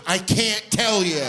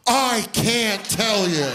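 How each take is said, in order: First: Slow, higher sheepish refusal; coy refusal. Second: Slow, higher coy refusal; sheepish refusal. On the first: Kid refusing to answer the dad, slow sheepish drawl. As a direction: drag it out like a guilty kid. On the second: Kid refusing to tell the dad, slow sheepish drawl. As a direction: stretch each word like a caught kid. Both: Retold or imitated.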